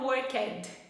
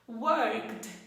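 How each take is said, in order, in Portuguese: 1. A palavra termina com um som de vogal extra. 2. A palavra termina claramente em consoante.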